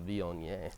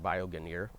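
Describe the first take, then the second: First: The word is not sounded out letter by letter. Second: The word is sounded out letter by letter. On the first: The speaker calls it right. "but it's Viognier" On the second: The speaker calls it wrong. "it looks like Viognier when you, if you read it uh, phonetically"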